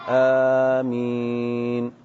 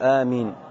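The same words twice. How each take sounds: First: Both the first and second vowels are drawn out. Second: The first vowel is short and the m single. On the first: "بمد الهمزة والميم" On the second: "تخفيف الهمزة وتخفيف الميم"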